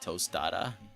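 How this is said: It is said with an American English accent. The speaker calls it wrong. "What did I say in an American accent?"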